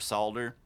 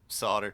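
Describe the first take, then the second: First: The word is said with a clear L sound. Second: The word is said without an L sound. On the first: "they actually pronounce it more as it's spelled" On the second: "we give it this French pronunciation in the U S mostly"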